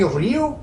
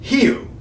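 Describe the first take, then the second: First: The word begins with an r sound. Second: The word begins with an h sound. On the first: The speaker calls it wrong. "shouldn't that be Rio?" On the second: The speaker calls it right. "R at the beginning of a word ... is pronounced H"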